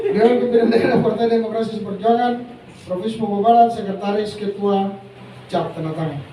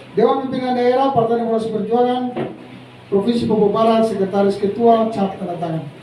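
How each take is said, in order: The two takes are said the same way.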